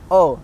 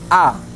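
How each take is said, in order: First: The vowel is closed and rounded, like o. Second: The vowel is open, with the mouth wide. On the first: The speaker calls it wrong. "mulutnya tidak dibuka, maka terdengarnya tidak A, tapi seperti E atau O" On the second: The speaker calls it right. "pengucapannya mulutnya harus dibuka"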